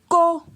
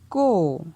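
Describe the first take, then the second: First: The syllable has a high tone. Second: The syllable has a falling tone. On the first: "Ton haut" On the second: "Ton descendant"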